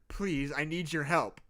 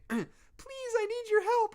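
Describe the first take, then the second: First: It is said in an ordinary speaking voice. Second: It is said in a small, feminine voice. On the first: The speaker calls it wrong. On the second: The speaker calls it right.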